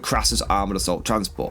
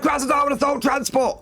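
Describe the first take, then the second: First: The name is said in a plain, ordinary voice. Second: The name is said loudly and dramatically. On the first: The speaker calls it wrong. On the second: The speaker calls it right.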